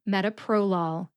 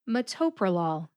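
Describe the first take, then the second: First: The main stress is on the third syllable. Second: The main stress is on the second syllable. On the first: "the third syllable, pro, gets the primary emphasis" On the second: "The second syllable, to, gets the emphasis"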